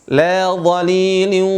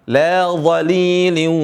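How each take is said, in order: The two takes are said the same way.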